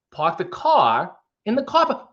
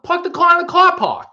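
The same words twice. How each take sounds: First: Halting Boston accent, broken by pauses; higher-pitched, stop-start impression with dropped r's; Christopher Walken. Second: Very high-pitched, exaggerated Boston accent; hammed-up Boston twang, way up high. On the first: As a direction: break the Boston phrase into odd, separated chunks. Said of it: "went a little Christopher Walken there". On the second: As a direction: run it together in a high Boston voice. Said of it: "in the Boston accent". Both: Shown as a demonstration.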